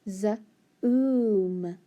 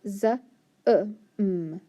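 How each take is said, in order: First: The vowel is a long oo sound. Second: The vowel is a short uh sound. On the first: The speaker calls it right. "let's try it with the oo" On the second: The speaker calls it wrong. "It can make the uh sound"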